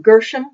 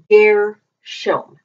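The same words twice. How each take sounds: First: The name is said the English Bible way. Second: The name is said the Hebrew way. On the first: The speaker calls it wrong. "we usually read it in the Bible as" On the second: The speaker calls it right. "but it's Gershom"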